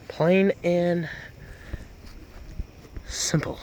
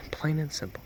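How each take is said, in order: First: Said in the usual way. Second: "Plain and simple" breathed as a whisper. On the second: Acted. Truck guy whispering his tagline to the viewers. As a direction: hush it like a secret.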